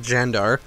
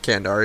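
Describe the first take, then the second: First: The name begins with a soft J sound. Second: The name begins with a hard K sound. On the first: The speaker calls it right. "it is like Jandar" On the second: The speaker calls it wrong. "It is not Kandar"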